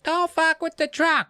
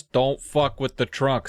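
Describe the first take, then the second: First: High-pitched mock kids' chorus; kids repeating. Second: Said in the usual way. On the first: Kids dutifully repeat Dad's trunk rule, high mocking chant. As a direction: parrot it back in a squeaky kid voice.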